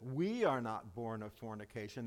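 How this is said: The word 'we' is strongly emphasized. Unlike the listener, the speakers are not illegitimate. "That would be the inflection"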